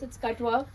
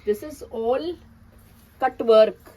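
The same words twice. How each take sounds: First: Said in the usual way. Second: "cut work" hit hard and loud; stress on cut work. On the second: Real, not acted. Seller showing a kaftan to viewers, stressing "cut work" loudly. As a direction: punch "cut work" to show it is not lace. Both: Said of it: "Please note".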